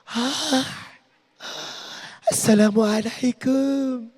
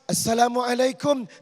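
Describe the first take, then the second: First: It is said in a soft, coy voice. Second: It is said in a firm, plain voice.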